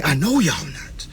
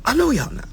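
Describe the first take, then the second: First: Said in the usual way. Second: I know y'all not said higher, teasing; mock high. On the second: Shown as a demonstration. Host teasing viewers who skip contracts, higher. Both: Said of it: "repeated line".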